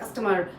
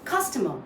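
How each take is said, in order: First: The stress is not on the first syllable. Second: The stress is on the first syllable. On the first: The speaker calls it wrong. "that won't be correct" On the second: The speaker calls it right. "So you're stressing on the first part"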